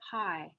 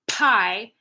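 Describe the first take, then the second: First: The P has a soft puff of air. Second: The P has a strong puff of air. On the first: "how soft you can make it" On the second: "super intense like pie"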